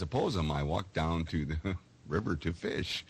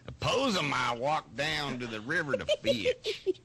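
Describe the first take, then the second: First: It is read in a plain, unaccented voice. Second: It is said in a southern accent.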